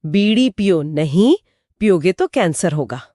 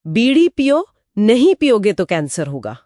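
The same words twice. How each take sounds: First: बीड़ी पियो नहीं as one phrase, then पियोगे; नहीं closes the first phrase, clear pause after it. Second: बीड़ी पियो lifted, then नहीं पियोगे together; नहीं starts the second phrase, after a pause. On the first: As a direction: break after नहीं before पियोगे तो cancer होगा. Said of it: "बीड़ी पियो नहीं के बाद कॉमा है". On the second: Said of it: "अब यहाँ अल्प विराम कहाँ लगेगा?". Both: Shown as a demonstration.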